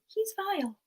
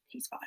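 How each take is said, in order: First: "He's vile." said higher and soft; higher delivery. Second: Barely audible "He's vile."; almost silent "He's vile."; whispered quote. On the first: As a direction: lift it up, softly disgusted. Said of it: "they don't really say it like that". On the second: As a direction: hush it right down. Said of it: "it's just kinda like". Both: Shown as a demonstration.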